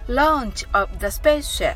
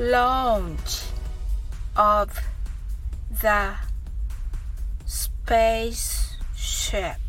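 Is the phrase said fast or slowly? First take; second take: fast; slowly. First: The phrase is spoken at a fast pace. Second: The phrase is spoken at a slow pace. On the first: "次に早く言ってみましょう" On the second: "ゆっくりと発音してみましょう"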